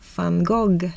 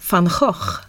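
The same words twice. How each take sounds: First: The name is said with a Swedish pronunciation. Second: The name is said with a Dutch pronunciation. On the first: This is how Swedes usually say it. "svenskarna säger van Gogh" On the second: This is how it is said in the original language. "så som man uttalas på nederländska"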